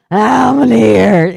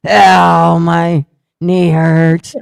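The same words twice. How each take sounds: First: Slower, louder and higher whiny moan; repeated mock whimper. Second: Slow, loud whiny groan of pain; hammed-up pained whine over the toilet; mock whimper. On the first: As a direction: keep groaning about the knee. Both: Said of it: "while I was going".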